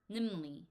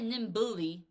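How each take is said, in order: First: No 'b' sound is heard after the 'm'. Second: A clear 'b' sound is heard after the 'm'. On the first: The speaker calls it right. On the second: The speaker calls it wrong. "we don't say nimbly"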